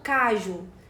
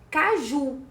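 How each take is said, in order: First: The stress is on the first syllable. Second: The stress is on the last syllable. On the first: The speaker calls it wrong. "e não" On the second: The speaker calls it right. "A gente fala caju"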